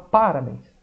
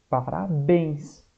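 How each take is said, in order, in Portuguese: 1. A tônica está na primeira sílaba. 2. A tônica está na última sílaba. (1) "uns vão falar que é o pá" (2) "A sílaba mais forte é o bens"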